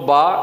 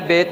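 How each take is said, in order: First: The letter name ends in an 'a' vowel. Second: The letter name ends in an 'e' vowel. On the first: This is the proper Quranic reading. The speaker calls it right. "इसको बा पढ़ना है" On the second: This is the everyday school reading. The speaker calls it wrong. "Urdu में अली बे ते से पढ़ते हैं"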